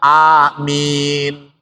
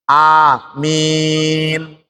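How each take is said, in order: First: The vowel before the final m is held briefly. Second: The vowel before the final m is held moderately long. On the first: "boleh dibaca dua harokat" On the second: "boleh empat harokat"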